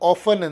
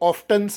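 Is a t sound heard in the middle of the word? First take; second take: no; yes. First: The t in the middle is silent. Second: The t in the middle is pronounced. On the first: "ನಾನು ಆಫನ್ ಅಂದೆ" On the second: "ಕೆಲವರು ಆಫ್ಟನ್ಸ ಅಂತಾರೆ"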